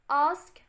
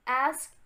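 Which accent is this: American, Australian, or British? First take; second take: British; American. First: It is said in a British accent. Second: It is said in an American accent.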